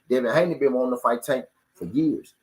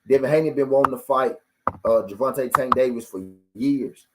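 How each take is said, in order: First: It is said at a normal, quicker pace. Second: It is said slowly and deliberately.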